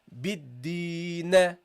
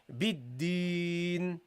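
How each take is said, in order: First: The final n is released with an extra vowel. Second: The word ends tightly on n with no vowel. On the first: The speaker calls it wrong. "don't give the noon a bounce" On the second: The speaker calls it right. "keep everything, you know, tight"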